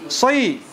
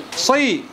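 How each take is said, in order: Both takes have the same delivery.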